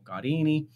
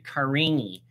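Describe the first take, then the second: First: The name is said with an Italian pronunciation. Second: The name is said with an American pronunciation.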